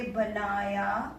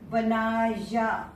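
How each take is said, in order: First: बनाया said at normal speed with the glide; spoken pronunciation. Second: बनाया drawn out slowly, each letter as written; spelling pronunciation. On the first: Teacher gives the natural spoken form of बनाया. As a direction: say बनाया naturally, as people speak it. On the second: Teacher slowly reads बनाया letter by letter. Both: Shown as a demonstration. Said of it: "बोलेंगे बनाया".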